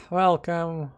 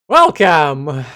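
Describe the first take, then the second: First: Said in the usual way. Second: Booming, announcer-style welcome; loud welcome. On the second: Pretend. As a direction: call out Welcome like a host. Streamer echoes game greeting loudly.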